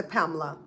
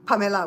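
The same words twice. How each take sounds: First: "Pamela" squeezed to two syllables, Pam-la; wrong Pamela. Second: "Pamela" with open a, all three syllables pa-me-la; Belizean Pamela. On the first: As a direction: drop the middle e of "Pamela". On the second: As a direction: say "Pamela" keeping the e sound. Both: Shown as a demonstration. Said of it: "we don't say Pamela".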